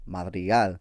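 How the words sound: The name is said with a Spanish pronunciation. It is the name's original pronunciation. "when you say it in like the Spanish way"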